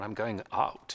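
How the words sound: It is said in an open British accent.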